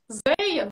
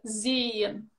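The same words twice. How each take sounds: First: The first vowel is a wide, open e. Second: The first vowel is a narrow, closed e. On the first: It becomes a different word. The speaker calls it wrong. "то это будет совершенно другое слово, и вас не поймут" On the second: It means 'to see'. The speaker calls it right. "вместо «зейен» «видеть»"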